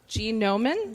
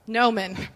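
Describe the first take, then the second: First: The word begins with a hard G sound. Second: The word begins with an N sound. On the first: The speaker calls it wrong. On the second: The speaker calls it right.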